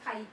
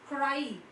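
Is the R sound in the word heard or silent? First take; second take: silent; heard. First: The R sound is left out of the word. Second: The R sound is clearly pronounced in the word. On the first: The speaker calls it wrong. "If you don't produce the sound, it becomes kai" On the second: The speaker calls it right. "it is cry"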